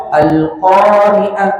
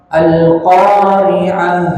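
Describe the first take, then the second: First: Slow "al-qari'ah" with final h cut to a stop; stopped ending. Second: Slow "al-qari'ah" ending on an airy h; flowing breath. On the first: Teacher showing a forbidden reading, stopped ending. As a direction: choke off the end of "al-qari'ah", no breath. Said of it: "Nggak boleh dibaca". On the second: Teacher giving the right ending, flowing breath. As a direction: let the breath run out on the last h of "al-qari'ah". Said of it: "itu dialirkan nafasnya". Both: Shown as a demonstration.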